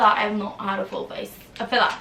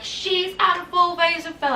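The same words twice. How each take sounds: First: Said in the usual way. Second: Higher-pitched mimicry of accusing commenters; put-on high voice of online critics; mock accusation. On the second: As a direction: imitate gossipy people making an accusation up high. Mimics commenters' accusation, then denies it.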